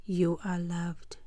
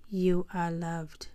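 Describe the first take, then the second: No difference in how they are said.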